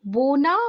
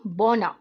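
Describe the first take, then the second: First: बोना called out high and loud; teacher calling out बोना; loud demo word. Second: बोना repeated lower and falling; teacher repeating बोना; second take, lower. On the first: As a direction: announce बोना to the class. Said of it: "तो बोना का अर्थ". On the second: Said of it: "ये शब्द बन गया बौना". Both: Shown as a demonstration.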